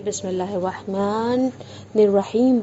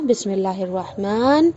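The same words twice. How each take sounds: First: "بسم اللہ الرحمن الرحیم" flowing on, the ن of "الرحمن" carried with kasra into "الرحیم"; joined recitation. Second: "بسم اللہ الرحمن" ending dead on a silent ن, no vowel after it; stop on silent nun. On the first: Teacher showing joined recitation of Bismillah, ن linked into "الرحیم". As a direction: run "الرحمن" straight into "الرحیم" without a break. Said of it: "یہ وصل کرتے ہیں". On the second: Teacher showing a pause after "الرحمن" with silent ن. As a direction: halt right on the ن of "الرحمن". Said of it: "اب رک رہے ہیں". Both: Shown as a demonstration.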